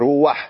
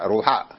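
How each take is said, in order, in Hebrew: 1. תנועת ה-'a' באה לפני הצליל 'ch'. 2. תנועת ה-'a' באה אחרי הצליל 'ch'. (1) "זה נקרא פתח גנובה" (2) "מי שילד שיקרא, אז הוא יקרא רש וואו שהוא רק רו, חת ופתח"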